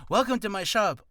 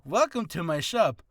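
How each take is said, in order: First: Said in the usual way. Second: A slightly brighter shopkeeper welcome; merchant greeting. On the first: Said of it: "instead of going like". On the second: Shown as a demonstration. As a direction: greet the customer like a friendly merchant. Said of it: "Oh, it's, no".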